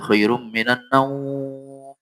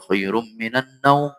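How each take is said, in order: First: The final word naum is stretched out long. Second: The final word naum is kept short. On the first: The speaker calls it wrong. "Panjang naumnya" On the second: The speaker calls it right. "Begitu aja"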